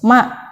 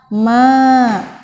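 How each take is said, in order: First: The vowel is kept short. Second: The vowel is drawn out long. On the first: The speaker calls it right. "Maka dibacanya harus ma" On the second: The speaker calls it wrong. "Gak boleh dibaca ma"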